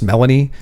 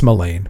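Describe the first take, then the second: First: The name is said with three syllables. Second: The name is said with two syllables. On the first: The speaker calls it wrong. "which you'll hear in the uh, in the books pronounced Melanie" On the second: The speaker calls it right. "it's not, it's Melane"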